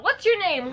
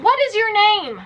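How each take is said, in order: First: Said in the usual way. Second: "What" punched higher and louder, demanding; stress on WHAT. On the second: Shown as a demonstration. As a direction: hit "What" hard, insisting on an answer.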